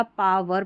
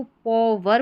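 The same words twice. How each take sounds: First: पावर with an open 'aa' in the first syllable; second reading option. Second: पॉवर with an 'aw' vowel in the first syllable; first reading option. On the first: Teacher offering learners the other reading, पावर said with 'aa'. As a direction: say पावर as 'PAA-ver'. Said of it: "या पावर पढ़ेंगे". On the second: Teacher offering learners one possible reading, पॉवर said with 'aw'. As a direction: say पॉवर as 'PAW-ver'. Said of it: "या तो इसको P O पॉवर पढ़ेंगे". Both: Shown as a demonstration.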